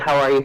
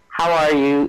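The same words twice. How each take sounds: First: It sounds quick and perfunctory, not interested. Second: It sounds warm and genuinely interested.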